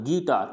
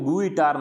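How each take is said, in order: First: No 'u' sound is heard after the 'g'. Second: A 'u' sound is heard after the 'g'. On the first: The speaker calls it right. "तो यू को नहीं पढ़ा जाएगा" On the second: The speaker calls it wrong. "इसको गुइटार नहीं बोलना है"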